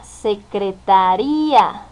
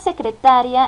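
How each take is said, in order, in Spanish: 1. La sílaba tónica es la última. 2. La sílaba tónica es la penúltima. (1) "hasta ría" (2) "la acentuación desde ta"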